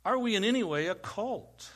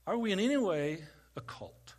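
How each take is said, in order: First: Said in the usual way. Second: Whispered question, no voice at all. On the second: Shown as a demonstration. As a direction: breathe it to them like a secret. Asks same question twice.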